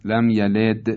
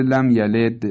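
First: یلد ending in a د bounce toward i; qalqala leaning to kasra. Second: یلد with the د bouncing toward i; slow لم یلد with د rebounding toward kasra; qalqala leaning to kasra. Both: Shown as a demonstration.

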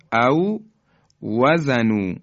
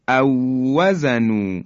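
First: او وزنو as two words, a pause after او; unmerged w. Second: او وزنو joined through one long w; merged w. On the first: Teacher showing the still waw before merging, separated w. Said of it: "واو اولی ساکنه". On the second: Teacher showing how it is pronounced, merged w. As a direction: slowly recite او وزنو in one breath, holding the doubled w. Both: Shown as a demonstration.

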